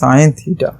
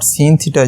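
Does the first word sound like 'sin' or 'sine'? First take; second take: sine; sin. First: The first word is said like 'sine'. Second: The first word is said like 'sin'. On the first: The speaker calls it right. "this is sine theta because its actual name is sine" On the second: The speaker calls it wrong. "This is not sin theta"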